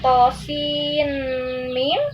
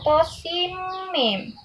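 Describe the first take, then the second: First: An n sound is heard before mim. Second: The n merges directly into mim. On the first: The speaker calls it wrong. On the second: The speaker calls it right.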